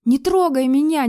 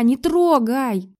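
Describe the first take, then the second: First: High, loud crying plea; pinned to the wall, weeping plea; tearful plea. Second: Slow, drawn-out tearful repeat; slow weeping plea, fading. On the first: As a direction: beg through tears. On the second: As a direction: drag the plea out through tears. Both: A narrator's reading. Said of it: "Слёзы брызнули из моих глаз".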